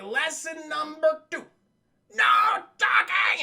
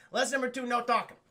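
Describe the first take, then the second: First: Slow build to a loud shout on talking; loud villain proclamation. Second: Said in the usual way. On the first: Retold or imitated. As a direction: bellow the rule at the kids. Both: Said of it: "you're so loud".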